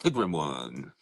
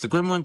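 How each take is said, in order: First: Deep pitched-down voice changer effect. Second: Said in the usual way. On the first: Real, not acted. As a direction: voice changer dropping the voice low. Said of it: "I like the voice changer thing". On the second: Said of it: "Like I said, I'm your host".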